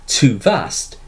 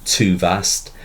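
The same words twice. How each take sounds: First: "too vast" with both words stressed equally, falling; spondee stress. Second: "too vast" with both syllables stressed, rising; double stress. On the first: Teacher shows the class a spondee with both syllables stressed. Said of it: "is a spondee, in which both syllables are stressed". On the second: Teacher repeats the spondee with double stress. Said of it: "The double stress on". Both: Shown as a demonstration.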